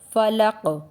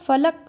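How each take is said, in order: First: The final q has a light bouncing echo. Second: The final q stops flat with no echo. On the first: The speaker calls it right. "सही तरीका है फ़लक़ हल्की बाउंस आवाज़ के साथ" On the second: The speaker calls it wrong. "हम अक्सर फ़लक़ सीधा पढ़ देते हैं"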